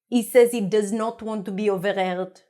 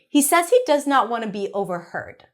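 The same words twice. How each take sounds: First: It is spoken with a put-on French accent. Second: It is spoken in a natural English accent. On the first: "the next part I'm going to read with my best French accent" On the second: "now I'm going to do it with my natural accent. Now we pronounce the H"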